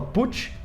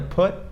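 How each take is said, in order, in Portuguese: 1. O t final soa como um som de ch. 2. O t final é um som de t simples. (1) "muita gente fala put" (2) "então é put"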